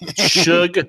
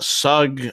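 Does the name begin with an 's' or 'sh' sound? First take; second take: sh; s. First: The name begins with an 'sh' sound. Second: The name begins with a plain 's' sound. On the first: This is how locals say the name. The speaker calls it right. "Shug Jordan is how you say it uh, in in in Auburn" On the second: This is how an outsider says the name. The speaker calls it wrong. "I love to hear the New York sportscaster say uh, Sug"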